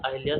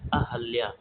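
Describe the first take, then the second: First: An 'i' vowel follows the first syllable 'Ah'. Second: No vowel follows the first syllable 'Ah'. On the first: The speaker calls it wrong. "यह गलत शब्द होता है" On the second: The speaker calls it right. "सही शुद्ध उच्चारण वाला"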